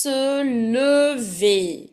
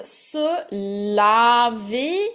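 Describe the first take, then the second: First: "lever" drawn out with a rounded "uh" in the first syllable; careful "lever", first vowel a neutral schwa as in "le"; careful contrast. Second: "laver" drawn out with an open "ah" in the first syllable; slow, careful "laver", first vowel wide as in "la"; careful contrast. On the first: Teacher warning students of look-alike verbs, careful "uh" in "lever". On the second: Teacher warning students of look-alike verbs, careful "ah" in "laver". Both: Shown as a demonstration. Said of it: "Be very, very careful".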